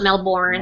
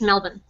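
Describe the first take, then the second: First: It is said a non-local way. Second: It is said the local Australian way. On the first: This is how outsiders say it. The speaker calls it wrong. "Not Melbourne" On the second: This is how locals say it. The speaker calls it right. "If you want to say it the way we say it, it's just Melbourne"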